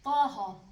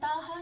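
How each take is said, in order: First: The first consonant is heavy and thick. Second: The first consonant is light and thin. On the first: The speaker calls it right. "भारी करके अदा कर दे" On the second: The speaker calls it wrong. "तो हम ताहा नहीं कहेंगे"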